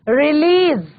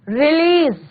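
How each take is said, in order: The two takes are said the same way.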